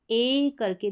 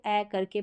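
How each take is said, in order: First: ए held long, as in "day". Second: ए short and open as in "apple". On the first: Teacher introducing the long vowel, drawn-out ए. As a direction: say ए करके with a long, closed ay. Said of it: "अब यहाँ पर long रहेगा". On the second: Teacher recalling the short sound, open ए. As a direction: say ए करके with the apple vowel. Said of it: "इसको जैसे एप्पल में हम short". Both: Shown as a demonstration.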